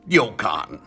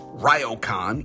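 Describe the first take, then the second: First: The r sounds close to a light D. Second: The r sounds like an English R. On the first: The speaker calls it right. "it rolls more on your tongue like a D" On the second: The speaker calls it wrong. "It's not pronounced"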